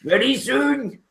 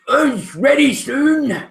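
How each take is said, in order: First: High ogre repeat, cut short. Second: High, slow ogre promise. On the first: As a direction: snap ready soon like a hurried ogre. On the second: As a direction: drag out ready soon like a nervous ogre. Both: Acted. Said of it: "the ogre looks up and says".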